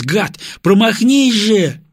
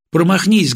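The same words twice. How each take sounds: First: High, loud, drawn-out pleading cry; desperate plea. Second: Loud, high, pleading cry; will the bomb to miss; desperate plea. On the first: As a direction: beg the bomb to miss, slowly. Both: A narrator's reading. Praying the bomb misses.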